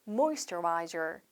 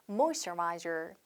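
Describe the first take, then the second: No difference in how they are said.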